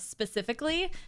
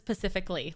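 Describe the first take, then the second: First: The word begins with the sound 'spe'. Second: The word begins with the sound 'pa'. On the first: The speaker calls it right. "instead of saying" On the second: The speaker calls it wrong. "she says specifically, like the Pacific Ocean"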